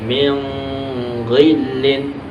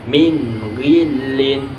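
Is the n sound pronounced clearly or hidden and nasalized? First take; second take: hidden; clear. First: The n is hidden with a lingering nasal sound. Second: The n is pronounced clearly before the gh. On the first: The speaker calls it wrong. "tidak boleh dibaca seperti ikhfa" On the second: The speaker calls it right. "harus dibaca min ghillin"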